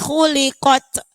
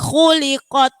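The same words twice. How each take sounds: First: The q bounces too strongly with extra sound. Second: The q bounces lightly without extra sound. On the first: The speaker calls it wrong. "Kadang-kadang kita khuliqat sampai mood, sampai bunyinya cek cek. Kadang terlalu banyak" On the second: The speaker calls it right. "Jadi khuliqat"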